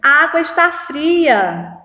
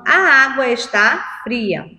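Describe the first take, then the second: First: The voice sounds surprised and emphatic. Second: The voice falls calmly at the end. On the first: The speaker is expressing amazement. "Você está admirando" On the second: The speaker is simply stating a fact. "É uma frase afirmativa. Ele está afirmando"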